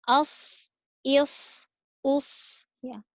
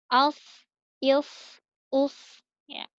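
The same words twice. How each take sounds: No difference in how they are said.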